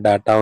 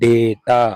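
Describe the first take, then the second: First: The first vowel sounds like ah. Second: The first vowel sounds like ay. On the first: The speaker calls it wrong. "కానీ దాన్ని అలా pronounce చేయొద్దు" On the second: The speaker calls it right. "దీన్ని డేటా అనాలి"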